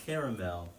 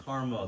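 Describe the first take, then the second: First: Caramel as "CARE-a-mel", middle A sounded; three-syllable caramel. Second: Caramel as "CAR-mul", middle A dropped; two-syllable caramel. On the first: Comparing pronunciations aloud, three-syllable "CARE-a-mel". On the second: Comparing pronunciations aloud, two-syllable "CAR-mul". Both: Shown as a demonstration. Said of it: "Do some people pronounce the A".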